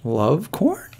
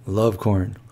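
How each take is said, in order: First: "Love corn?" with a rising question tune. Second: "Love corn." with a low falling statement tune. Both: Shown as a demonstration. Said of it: "I don't know if this is a question or a statement".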